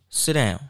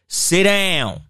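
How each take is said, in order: First: It is said at an ordinary, calm level. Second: It is said louder with a raised voice. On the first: "I could tell you" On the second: "you can raise your tone"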